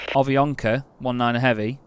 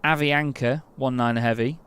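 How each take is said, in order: Both takes have the same delivery.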